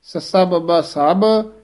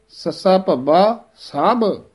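First: ਸਭ said with a light b; wrong pronunciation. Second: ਸਭ with a heavy bh, slowly; correct pronunciation. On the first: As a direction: show ਸਭ wrongly with b. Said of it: "ਸਭ ਨਹੀਂ ਕਹਿ ਦੇਣਾ". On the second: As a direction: say ਸਭ with a weighty bh. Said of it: "ਭੱਬਾ ਥੋੜ੍ਹਾ ਭਾਰਾ". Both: Shown as a demonstration.

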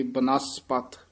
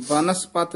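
First: ਬਨਸਪਤ said ba-NAS-pat, parted after ਬ; ਬਨਸਪਤ with the weight on the second syllable; split after first letter. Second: ਬਨਸਪਤ said as BAN-as-pat, front-stressed; ਬਨਸਪਤ without a break after ਬ; mispronunciation demo. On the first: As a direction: separate ਬ lightly, then stress NAS in ਬਨਸਪਤ. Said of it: "ਬੱਬੇ ਤੋਂ dash ਦੇ ਕੇ". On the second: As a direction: lean on the first syllable of ਬਨਸਪਤ. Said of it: "ਬਨਸਪਤ ਨਹੀਂ ਕਹਿਣਾ". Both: Shown as a demonstration.

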